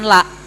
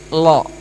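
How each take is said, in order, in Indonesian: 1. L-nya tipis, dengan bunyi vokal a yang jelas. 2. L-nya tebal, vokalnya agak gelap ke arah o. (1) "Bukan la" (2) "kalau dibaca tebal? ... tapi lo"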